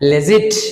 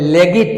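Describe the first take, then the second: First: The g is soft, like a j sound. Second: The g is hard, as in 'get'. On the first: The speaker calls it right. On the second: The speaker calls it wrong. "তাহলে লেগিট নয়"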